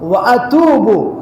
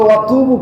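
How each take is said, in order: First: The two words are said as separate words. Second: The two words are run together as one. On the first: The speaker calls it right. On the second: The speaker calls it wrong.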